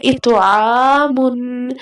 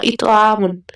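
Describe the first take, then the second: First: "इत आ मुन" very slow, त bounced, long आ; bounced consonant. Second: "इत आ मुन" run through quickly, no bounce on the त; unbounced reading. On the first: Teacher showing students the reading of "इत आ मुन", त bounced, drawn out. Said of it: "हमने ऐसे पढ़ना है". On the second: Teacher showing students how not to read "इत आ मुन", त left unbounced. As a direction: say "इत आ मुन" with the त left still, vowel kept short. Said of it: "हमने ऐसे नहीं पढ़ना". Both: Shown as a demonstration.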